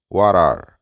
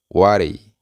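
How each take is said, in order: First: Both words are said fully and separately. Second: The words blend into one reduced word. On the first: It is the formal way of saying it. "La manera formal es what are" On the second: It is the informal way of saying it. "la manera informal. Vamos a decir whatty"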